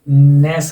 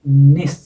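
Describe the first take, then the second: First: The suffix has a full 'e' vowel. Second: The suffix has a short 'i' vowel. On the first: The speaker calls it wrong. "नेस नहीं होता है" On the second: The speaker calls it right. "नस या निस"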